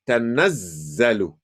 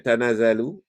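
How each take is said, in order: First: The z sound is held and doubled. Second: The z sound is short and single. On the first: The speaker calls it right. "but instead say tanazzalu" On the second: The speaker calls it wrong. "don't say tanazalu"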